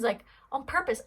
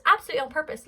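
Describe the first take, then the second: First: Said in the usual way. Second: "absolutely" punched higher and louder; stress on absolutely. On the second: Shown as a demonstration. Insisting to viewers the dog means it, "absolutely" stressed loud and high. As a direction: lean hard into "absolutely".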